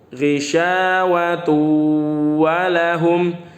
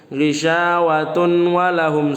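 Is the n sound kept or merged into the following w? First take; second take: merged; kept. First: The n merges into a doubled w sound. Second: A separate n is heard before the w. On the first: The speaker calls it right. "Tanwinnya dileburkan ke huruf waw" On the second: The speaker calls it wrong. "Jangan dibaca ... salah, salah"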